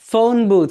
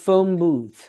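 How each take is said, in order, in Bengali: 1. 'phone' শেষে একটা স্পষ্ট n ধ্বনি আছে। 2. 'phone' শেষে m-এর মতো ধ্বনি আছে। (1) "ফোন বুথ হয়ে যাবে" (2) "it will be changed with ম sound"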